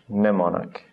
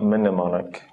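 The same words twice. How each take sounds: First: The M at the start is silent. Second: The M at the start is pronounced. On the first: The speaker calls it right. "For the N sound" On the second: The speaker calls it wrong. "it's not mnemonic"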